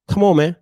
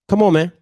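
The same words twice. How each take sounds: The two takes are said the same way.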